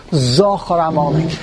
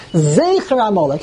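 First: "Zochar Amalek" with "Zochar" as ZAW-khar; mistaken pronunciation. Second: "Zecher Amalek" with "Zecher" as ZAY-kher; real pronunciation. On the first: Teacher showing the regular Komatz mistake, ZAW-khar in "Zochar Amalek". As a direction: round the first vowel of "Zochar Amalek" into "aw". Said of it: "He made a mistake". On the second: Teacher reading the two-dot vowel, ZAY-kher in "Zecher Amalek". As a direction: say "Zecher Amalek" with a long "ay" up front. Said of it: "the real way to pronounce the word". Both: Shown as a demonstration.

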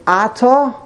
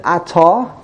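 First: Ata stressed on the opening A, AH-ta; stress on first syllable. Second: Ata stressed on the final ta, a-TA; stress on second syllable. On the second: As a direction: land on the last syllable of Ata. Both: Shown as a demonstration. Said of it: "how to, how to pronounce this".

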